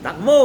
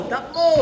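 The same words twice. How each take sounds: First: Loud call. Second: Higher pitched shout; high call. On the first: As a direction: shout it loud to teammates. (malakas na sigaw) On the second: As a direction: call it up high across court. (mataas na sigaw) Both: Real, not acted. Calling teammates to run.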